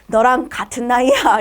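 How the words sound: The voice is sultry and seductive. "농염한 말투로"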